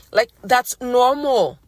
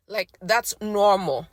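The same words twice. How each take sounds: First: Louder, slow, firm retake; slow emphatic retake, normal stressed; restated firmly. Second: Real voice giving out; voice cracking. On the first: Shown as a demonstration. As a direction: say it again and land normal. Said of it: "Sorry, you guys". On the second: Real, not acted. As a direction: let the line falter. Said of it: "my voice just went out on me".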